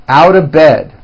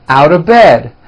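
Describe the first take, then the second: Both takes have the same delivery.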